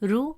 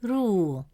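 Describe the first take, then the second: First: The vowel is short. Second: The vowel is long. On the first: The speaker calls it wrong. "Instead of pronouncing it as ru" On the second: The speaker calls it right. "it stretches the short u sound into a long oo sound"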